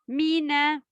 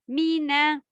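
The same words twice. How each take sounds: Both takes have the same delivery.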